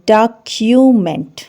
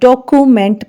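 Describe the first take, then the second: First: It starts with 'dah' and has a 'kyoo' sound. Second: It starts with 'doe' and has a plain 'koo'. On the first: The speaker calls it right. "D O को डा पढ़ेंगे और सी यू को क्यू पढ़ेंगे" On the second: The speaker calls it wrong. "सी ओ को डो पढ़ते हैं और सी यू को कू पढ़ते हैं और यही सारा मसला है"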